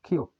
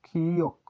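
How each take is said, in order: First: Said in the usual way. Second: কিয়ক with the first syllable held long; drawn-out pronunciation. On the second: Shown as a demonstration. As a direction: stretch কি, then land on য়ক. (কিয়ক টেনে টেনে উচ্চারণ) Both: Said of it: "এটি হচ্ছে কিয়ক".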